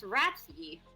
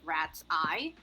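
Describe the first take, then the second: First: The name ends with an 'ee' sound. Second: The name ends with an 'eye' sound. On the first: The speaker calls it wrong. "I keep reading it as ratsy" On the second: The speaker calls it right. "It's supposed to be pre- pronounced like rat's eye"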